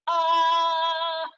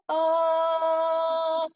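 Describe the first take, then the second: First: The voice is pressed and tense. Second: The voice is breathy and airy.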